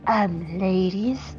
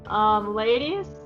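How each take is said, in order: First: It is said in a put-on character voice. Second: It is said in the speaker's ordinary voice.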